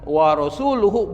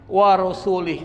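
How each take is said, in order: First: The ending after 'rasul' has a 'u' vowel. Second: The ending after 'rasul' has an 'i' vowel. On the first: Allah and His messenger both disown the idolaters. The speaker calls it right. "Seharusnya yang dibaca bukan rasuli tapi rasuluh" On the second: Allah disowns the idolaters and also His messenger. The speaker calls it wrong. "dibaca begitu. Kalau diartikan itu artinya berbahaya"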